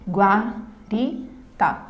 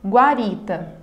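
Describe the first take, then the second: First: "Guarita" in three slow beats: gua, ri, ta; syllable by syllable. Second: Said in the usual way. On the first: Shown as a demonstration. Teacher showing three syllables to students, syllable by syllable. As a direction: pause after each syllable of "Guarita". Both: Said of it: "uma palavra composta por três".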